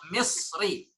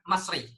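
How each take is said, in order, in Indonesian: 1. Vokal pertama adalah bunyi 'i' tertutup. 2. Vokal pertama adalah bunyi 'a' terbuka. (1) "kalau seharusnya kan Misri" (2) "kalau kita dengar orang Mesir sendiri mengatakan, dia akan bilang Masri"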